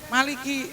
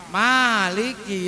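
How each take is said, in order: First: The first vowel is kept short. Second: The first vowel is held long. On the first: It means king. "ada yang baca ma-nya pendek" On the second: It means owner. "Bacanya ma-nya pan, panjang"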